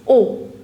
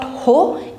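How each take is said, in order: First: The word starts directly with a vowel sound. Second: The word starts with an audible h sound. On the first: The speaker calls it right. "it's O" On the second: The speaker calls it wrong. "So it's not ho"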